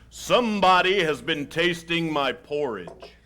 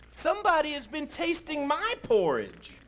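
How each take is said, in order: First: It is said in a great big voice. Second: It is said in a middle-sized voice.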